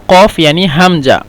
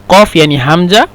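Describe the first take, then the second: Both takes have the same delivery.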